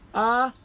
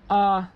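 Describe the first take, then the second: First: The pitch is held high and level. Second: The pitch stays level in the middle. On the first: "high tone" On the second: "flat tone, as you don't as if you don't care"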